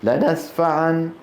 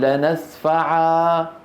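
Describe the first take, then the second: First: The word ends with an n sound. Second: The word ends with a long a sound. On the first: The speaker calls it wrong. "ولا نقول لنسفعا" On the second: The speaker calls it right. "فإذا وقفنا عليها ... نقول لنسفعا"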